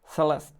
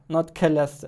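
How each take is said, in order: First: The name is said with an English pronunciation. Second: The name is said with a German pronunciation. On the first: The speaker calls it right. "even without the E at the end" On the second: The speaker calls it wrong. "I was pronouncing it with my stupid German pronunciation"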